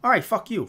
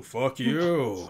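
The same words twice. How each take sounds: First: Pitched-up New York grouch retort; Grumble. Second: Lower, put-on villain retort; Mondo. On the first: Retold or imitated. Grumble snapping back at Mondo, high New York grouch. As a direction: toss it off, high and brusque. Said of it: "He has this New York accent". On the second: Mondo returning Grumble's insult, put-on lower voice. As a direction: answer back in a drawn-out character voice. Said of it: "Mondo's like".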